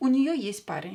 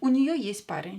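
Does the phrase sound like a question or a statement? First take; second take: statement; statement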